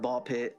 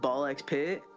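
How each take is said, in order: First: The X in the middle is left silent. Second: The X in the middle is pronounced aloud. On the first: "you can say it like either or" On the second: "you can say it like either or"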